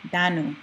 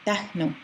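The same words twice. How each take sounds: First: "danu" with no H before the N; without the H. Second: "dahnu" with an audible H before the N. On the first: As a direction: run the "da" straight into "nu", no breath between. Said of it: "practice saying dahnu without the H". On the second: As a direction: let a puff of breath close "dah" before "nu". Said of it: "Now say it with the H". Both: Shown as a demonstration.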